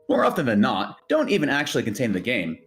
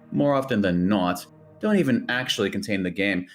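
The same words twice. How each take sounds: First: It is read in a generic YouTuber voice. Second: It is read in his normal voice.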